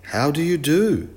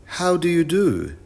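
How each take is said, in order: First: Said in the usual way. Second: Put-on high child's greeting, mildly shouted. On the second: A narrator's reading. Wilf repeats his greeting for the professor, mild high shout. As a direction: call out the greeting, pitched up. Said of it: "shouted Wilf".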